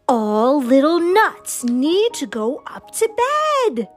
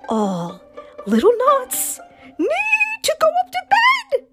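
First: It is said in a big, loud voice. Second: It is said in a bigger, louder voice. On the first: "in her big voice" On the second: "in her bigger voice"

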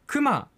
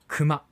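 First: The pitch falls within the word. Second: The pitch stays flat across the word. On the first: "あまりにも熊というアクセント、これが世の中に広がってしまった" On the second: "正しいアクセントは今私が発したように熊、アナウンサー界隈で言うところの平板"

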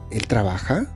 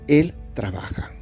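First: The voice rises at the end. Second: The voice falls at the end. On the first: It asks whether he works. "Y una pregunta sería" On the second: It states that he works. "Es una afirmación"

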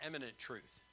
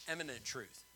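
No difference in how they are said.

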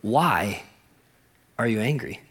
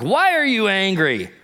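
First: It is said in a gentle, caring tone. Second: It is said in a harsh, accusing tone.

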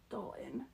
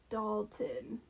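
First: The T in the middle is dropped. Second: The T in the middle is clearly pronounced. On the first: The speaker calls it wrong. "my Utah not pronouncing T's comes out" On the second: The speaker calls it right. "and then I catch myself"

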